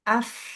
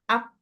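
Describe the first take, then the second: First: The final sound has audible air friction. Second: The final sound has no air friction. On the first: The speaker calls it right. "Ketika ujung gigi seri nempel dengan bibir bagian bawah, itu bisa dipastikan ada udara" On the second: The speaker calls it wrong. "kecuali bibirnya salah nih. Ketika bibirnya yang menempel tuh bukan bagian dalamnya, tapi bagian depan"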